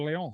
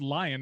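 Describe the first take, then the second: First: It is said the French way, like Leon. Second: It is said like the English word lion. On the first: The speaker calls it right. "they're called Leon" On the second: The speaker calls it wrong. "They're not called lion"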